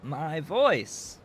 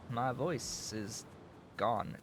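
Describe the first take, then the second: First: Loud, cracking hoarse yelp; hoarse cracking cry. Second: Slow, rough hoarse voice. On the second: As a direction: croak it out slowly, voice gone. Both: Real, not acted.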